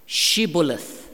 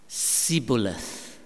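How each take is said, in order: First: The word begins with an SH sound. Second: The word begins with a plain S sound. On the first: This is how the password was meant to be said. The speaker calls it right. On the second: This is how the enemy said it and was exposed. The speaker calls it wrong.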